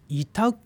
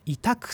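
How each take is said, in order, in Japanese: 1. 最後のkは弱く、ほとんど破裂しません。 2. 最後のkは強く、はっきり破裂します。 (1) "こう柔らかい言い方をすると" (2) "こうくを言うんじゃなくて"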